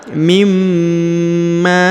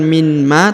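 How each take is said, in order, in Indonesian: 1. Huruf n melebur ke m yang ditahan dan berdengung. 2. Huruf n dibaca terpisah sebelum m. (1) "tapi mimma" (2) "jadi bukan min ma"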